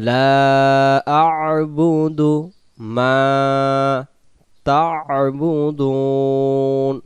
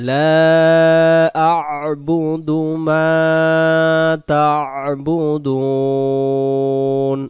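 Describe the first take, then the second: No difference in how they are said.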